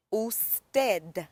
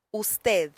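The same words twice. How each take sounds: First: Usted with a hard final d, said slowly; careful, conscientious usted with a plain d; usted as spelled. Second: Lisped th closing usted, carefully spoken; usted with th ending. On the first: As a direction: sound out usted exactly as written, ending in d. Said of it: "say it exactly how it looks". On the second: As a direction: say usted with the final d as th. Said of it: "don't want to speak with the th". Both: Shown as a demonstration.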